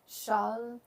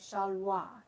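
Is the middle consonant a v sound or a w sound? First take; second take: v; w. First: The middle consonant is a v sound. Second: The middle consonant is a w sound. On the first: This is the newer pronunciation. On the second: This is the older pronunciation.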